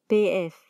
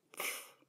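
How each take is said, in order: First: Said in the usual way. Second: Pf as one voiceless burst into "fff"; letter sound Pf. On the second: Shown as a demonstration. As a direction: pop p straight into f for Pf. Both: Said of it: "Se pronuncia".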